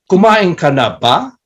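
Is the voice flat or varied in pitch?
varied. It is said with lively, varied question melody.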